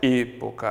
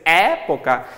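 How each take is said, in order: First: The first E vowel is closed. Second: The first E vowel is open. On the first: This is the Spanish pronunciation. "em espanhol vai ser época" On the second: This is the Portuguese pronunciation. "em português"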